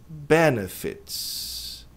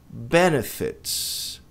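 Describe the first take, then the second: No difference in how they are said.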